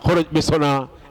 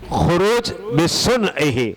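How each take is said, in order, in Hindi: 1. आख़िरी लफ़्ज़ 'na' की आवाज़ पर ख़त्म होता है। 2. आख़िरी लफ़्ज़ 'hi' की आवाज़ पर ख़त्म होता है। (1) "कोई पढ़ लेता है ... ऐसे पढ़ लेते हैं" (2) "जो सही तरीका है तलफ़ुज़ का"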